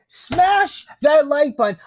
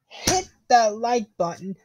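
First: Higher, louder, slower punchy call; loud hype shout. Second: Said in the usual way. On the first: Acted. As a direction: pump up the viewers with a shout. Hammy loud call to viewers.

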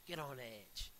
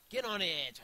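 First: Said in the usual way. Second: Higher, loud goading command; loud, raised-voice dare; urgent shout. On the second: Real, not acted. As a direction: yell it to urge them on. Urging escalates to a shout.

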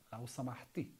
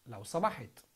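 First: لو سمحتي ending on a long i in سمحتي; female form. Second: لو سمحت ending flat on the t of سمحت; no final vowel on سمحت; male form. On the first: Teacher contrasts the feminine form لو سمحتي. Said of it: "For female". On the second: Teacher models the masculine form لو سمحت. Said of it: "So for male". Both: Shown as a demonstration.

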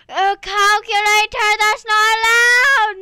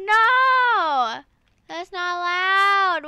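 First: Sung, belt it like a dramatic protest song; sung outrage. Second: Loud, higher indignant cry; mock protest. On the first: Pretend. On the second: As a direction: object like a wronged kid. Outrage at the calculator.

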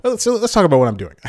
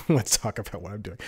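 First: Higher, louder, hurried burst; abrupt topic switch. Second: Softer, settled repeat after a laugh; amused self-echo. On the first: Vlogger interrupting his own ramble, high hurried announcement. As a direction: cut yourself off, quick and high. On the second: Vlogger repeating his own announcement, quiet amused echo. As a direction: drop the volume, amused at yourself. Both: Real, not acted.

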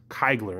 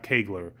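First: "Keigler" opening with an eye sound, like "kai"; pronounced Keigler. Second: "Kegler" opening with an ay sound, like "kay"; pronounced Kegler. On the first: Man passing on the German professor's correction, pronounced Keigler. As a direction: say "Keigler" so it starts like "kite". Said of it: "it was actually pronounced Keigler". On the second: Man showing the mistaken form of his name, pronounced Kegler. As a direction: say "Kegler" so it starts like "cake". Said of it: "not Kegler". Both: Shown as a demonstration.

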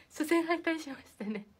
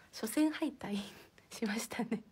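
First: Said in the usual way. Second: Sheepish whisper through a small laugh; a hushed, embarrassed aside. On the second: Real, not acted. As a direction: whisper the confession with a giggle. Confessing an embarrassing loss.

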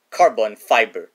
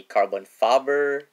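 First: "fiber" said clearly as "FY-ber"; louder, careful correction with a long i in "fiber"; re-say "fiber" firmly as "FY-ber"; corrected pronunciation. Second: "fiber" mispronounced as "fabber"; slip of the tongue. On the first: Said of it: "Sorry about that". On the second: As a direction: say "fiber" with a short flat first vowel, "fabber". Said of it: "or should I say". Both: Real, not acted.

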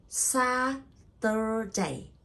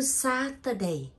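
First: "Saturday" very slowly as SA, TUR, DAY; syllable by syllable. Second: Said in the usual way. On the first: Shown as a demonstration. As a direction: stretch and separate all three syllables of "Saturday". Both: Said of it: "three syllable".

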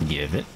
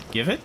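First: Deep, soft growled demand; low demanding growl. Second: Said in the usual way. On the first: Pretend. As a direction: grumble it low. Lower demanding repeat.

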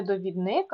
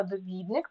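First: Довідник stressed on НИК; wrong stress on last syllable. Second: Довідник stressed on ВІД; stress on second syllable. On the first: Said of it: "так, не довідник". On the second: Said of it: "тому що довідатися". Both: Shown as a demonstration.

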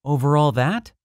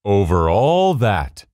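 First: "that" rising high as a question. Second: "all" drawn out slowly, then falling; affirming answer. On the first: Little prince asking about planets and stars, questioning with "that" raised. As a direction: ask it higher, lifting up on "that". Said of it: "asked the little prince". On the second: King confirming his rule, affirming with a long "all". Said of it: "the king answered". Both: A narrator's reading.

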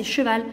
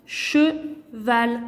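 First: Said in the usual way. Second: "Cheval" in two separate beats, che, val; split into syllables. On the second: Shown as a demonstration. Teacher counting syllables for pupils, "Cheval" split in two. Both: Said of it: "deux syllabes".

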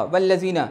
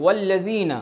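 First: والذین starting with a v-like sound; wrong unrounded waw. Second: والذین starting with a clear w, lips rounded; rounded waw. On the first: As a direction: say والذین as "vallazeena", lips unrounded. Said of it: "تو یہ wrong ہے". (ہونٹ گول کیے بغیر والذین) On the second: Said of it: "اب آپ کو گول کرنا ہے". (گول ہونٹوں سے والذین) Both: Shown as a demonstration.

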